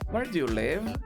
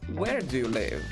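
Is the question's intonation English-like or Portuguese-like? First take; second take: Portuguese-like; English-like. First: The question has a Portuguese-style melody. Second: The question has a typical English melody. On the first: The speaker calls it wrong. "Eu não vou perguntar como se eu estivesse falando em português" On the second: The speaker calls it right. "Esse é o padrão"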